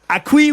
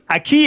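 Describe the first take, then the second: First: The u is sounded: it sounds like 'a-kwi'. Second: The u is silent: it sounds like 'a-ki'. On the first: The speaker calls it wrong. "et non pas aquí" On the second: The speaker calls it right. "on dit aquí"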